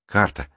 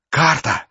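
First: Said in the usual way. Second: Higher, exclaimed discovery; thrilled cry of recognition; excited realisation. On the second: A narrator's reading. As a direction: burst out as the word becomes clear. Excited repeat on realising the word.

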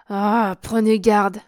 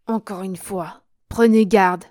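First: Slow, louder threat; warning. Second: Prenez garde burst out much louder, falling; sharp warning. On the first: Count warns Germaine, slow and menacing. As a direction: weigh each word of prenez garde as a warning. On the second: Count warns Germaine a second time, much louder. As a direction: snap the final warning. Count repeats his threat. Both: A narrator's reading.

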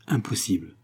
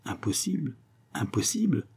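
First: Understated, final falling statement; affirmative tone. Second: Soft, higher, questioning murmur; murmured disbelief. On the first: Young woman confirms her refusal to suitor, affirmative tone. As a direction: state it as settled, no question. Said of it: "s'écria-t-elle d'un ton affirmatif". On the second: Disconcerted suitor echoes her refusal, murmured disbelief. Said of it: "murmura-t-il". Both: A narrator's reading.

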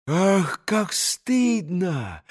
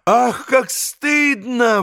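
First: Slow, hushed shame; ashamed exclamation. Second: High, drawn-out cry of shame; ashamed outcry. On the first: Grushenka learns of the cheating, slow hushed shame. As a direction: draw it out softly, mortified. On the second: Grushenka is shamed by the cheat, high slow outcry. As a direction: raise the pitch and stretch it, mortified. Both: A narrator's reading. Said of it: "воскликнула Грушенька".

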